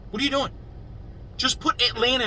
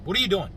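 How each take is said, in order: First: Exasperated. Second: Said in the usual way. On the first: Real, not acted. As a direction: pitch jumps way up in disbelief. Ranting at Atlanta about the name.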